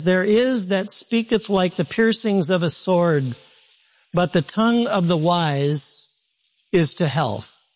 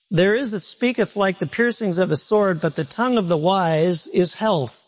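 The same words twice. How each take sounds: First: Slow, measured reading of the verse with pauses; slow scripture reading. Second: Said in the usual way. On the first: Shown as a demonstration. Pastor reading Proverbs to the congregation, slow and deliberate. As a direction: let each phrase of the verse land slowly. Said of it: "pastor reads verse slowly first". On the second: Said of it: "pastor rereads verse at normal pace".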